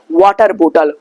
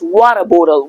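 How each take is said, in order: First: It is said in a non-American accent. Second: It is said in an American accent. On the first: The speaker calls it wrong. "Don't pronounce that water bottle" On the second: The speaker calls it right. "Try to pronounce water bottle"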